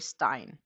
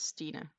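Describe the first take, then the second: First: It is one syllable, rhyming with 'line'. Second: It is two syllables, ending in an 'a' sound. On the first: The speaker calls it wrong. "most native English speakers will say Stein, which is not the way to pronounce my name" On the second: The speaker calls it right. "It's Stina"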